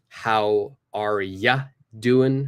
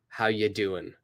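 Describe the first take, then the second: First: 'You' is reduced to 'ya' and the g is dropped. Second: 'Are' is dropped completely, leaving 'how you doing'. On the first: "We change that pronunciation to ya, and we get rid of the G" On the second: "we get rid of the R"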